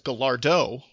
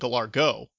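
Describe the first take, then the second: First: The word ends with a D sound before o. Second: The word ends with a hard G sound before o. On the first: The speaker calls it right. "I've heard it as Gallardo with a D" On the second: The speaker calls it wrong. "he was saying Gallargo with a G"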